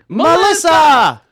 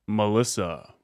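First: The name is shouted loudly. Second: The name is said in a deep radio voice.

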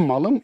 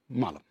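First: The stress falls on the last syllable. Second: The stress falls on the first syllable. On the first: The thing is one's own property. "Malım demenin iki vurgusu vardır derim her zaman. Bir" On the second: The speaker calls himself a beast or fool. "İki"

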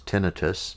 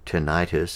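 First: The word is said in a non-American way. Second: The word is said in an American way.

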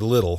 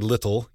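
First: The middle consonant is a soft D-like tap. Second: The middle consonant is a crisp, clear T. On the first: The speaker calls it right. "often a T will turn to a D in kind of the American accent" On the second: The speaker calls it wrong. "You don't say little"

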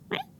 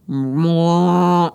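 First: It sounds like a small, ordinary cat meow. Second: It sounds like a loud, eerie demon cry.

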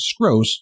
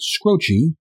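First: It is one syllable ending in an s. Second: It rhymes with a singer's surname, ending in a vowel. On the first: The speaker calls it right. "the man himself says Skros" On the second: The speaker calls it wrong. "at first I was pronouncing it Scroce, like to rhyme with Jim Croce"

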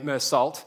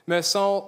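First: The name is said in an Australian accent. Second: The name is said in a French style.

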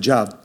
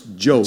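First: The vowel is short, like in 'job'. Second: The vowel is long, like in 'robe'. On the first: It is taken as the ordinary word for work. The speaker calls it wrong. "But I pronounced it Job" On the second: It names the biblical figure. The speaker calls it right. "No, it's Job"

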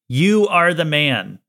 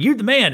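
First: It is said in a serious, accusing tone. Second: It is said in a cheering, celebratory tone.

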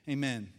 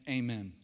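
Both takes have the same delivery.

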